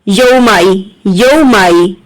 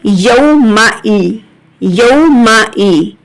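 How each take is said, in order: First: The glottal catch before 'ee' is slurred over. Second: The glottal catch before 'ee' is clearly pronounced. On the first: The speaker calls it wrong. "बहुत से लोग क्या मिस्टेक करते हैं, ... ऐसा पढ़ना गलत है" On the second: The speaker calls it right. "इसको आपको वाजिया पढ़ना है। कैसे"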